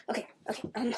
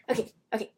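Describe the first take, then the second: First: Hushed unvoiced okay; whispering. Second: Said in the usual way. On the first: Real, not acted. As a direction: drop to a whisper. Settling down, whispered.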